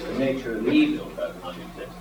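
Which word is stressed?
evil. The stress falls on the word evil. Evil itself does not exist. The speaker calls it wrong. "Perhaps you read it like this"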